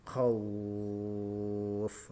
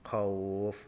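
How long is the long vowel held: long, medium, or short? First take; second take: long; short. First: The long vowel is held for six beats. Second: The long vowel is held for two beats. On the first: "panjang yang ketiga yaitu tiga alif atau enam harokat" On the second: "Sekarang yang coba yang satu alif"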